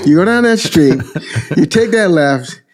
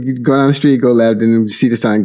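First: High Brooklyn directions with a laugh in it; Brooklyn Italian guy. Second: Said in the usual way. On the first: Retold or imitated. Brooklyn Italian truck guy giving a stranger directions, Brooklyn accent. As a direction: give the route like a chuckling Brooklyn local. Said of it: "very Brooklyn, New York, Italian guy".

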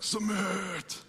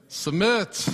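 First: Quieter, higher gloating Submit; smug husbands. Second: Louder, higher call of the word Submit; called out answer. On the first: Retold or imitated. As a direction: savor the word Submit like a husband who just won. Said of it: "some of you husbands are like". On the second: Real, not acted. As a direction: answer Submit out loud together. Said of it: "I'm gonna have you guys say it".

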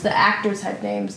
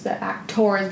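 First: Said in the usual way. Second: "actors" with a full "-tors" ending, like "ack-TORZ"; over-pronounced actors. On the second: Real, not acted. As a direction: say "actors" with a round, unreduced "or". Re-says actors against actress.

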